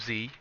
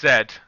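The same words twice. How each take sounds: First: The letter is said the American way, zee. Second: The letter is said the British way, zed.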